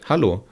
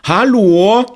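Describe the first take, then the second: First: It is said as a plain, friendly greeting. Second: It is said as a sharp, reproachful call. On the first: It is simply a greeting. "Привет" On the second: The listener is being told off for doing something wrong. "Вот именно с такой интонацией"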